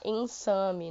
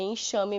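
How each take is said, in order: First: The middle consonant is a plain s sound. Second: The middle consonant is an sh sound. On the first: The speaker calls it wrong. "em lugar nenhum vão falar ensame" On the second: The speaker calls it right. "É enxame mesmo, aí tem o som de X"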